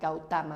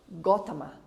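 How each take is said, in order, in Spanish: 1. Sigue la pronunciación de la ortografía española. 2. Sigue la pronunciación original del nombre. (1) "como lo deletreamos en español, eh, suena a" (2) "creo que se pronuncia eh"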